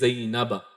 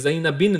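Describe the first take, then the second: First: The name ends with the sound 'a'. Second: The name ends with the sound 'in'. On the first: The speaker calls it right. "बल्कि ज़ैनबा" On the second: The speaker calls it wrong. "ये ज़ैनबिन नहीं होगा"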